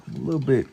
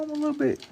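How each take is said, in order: First: Said in the usual way. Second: Much higher, thin put-on voice; high squeaky voice. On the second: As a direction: pitch the voice way up for a joke.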